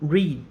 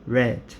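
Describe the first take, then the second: First: It is said with the present-tense pronunciation. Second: It is said with the past-tense pronunciation. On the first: The action is in the present. "o presente é pronunciado read" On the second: The action is in the past. "o passado é pronunciado read"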